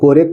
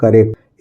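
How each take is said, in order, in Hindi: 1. पहला स्वर पूरी 'o' ध्वनि है। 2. पहला स्वर छोटी, घटी हुई ध्वनि है। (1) "ये कोरेक्ट नहीं लिखा है" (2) "ये ओ साइलेंट है"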